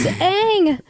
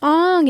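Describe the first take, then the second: First: The vowel is like 'a' in cat. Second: The vowel is an open 'ah' sound. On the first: The speaker calls it right. "It's Aang" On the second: The speaker calls it wrong. "It's not pronounced Ong"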